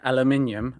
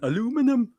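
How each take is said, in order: First: It is said the British way, five syllables. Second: It is said the American way, four syllables.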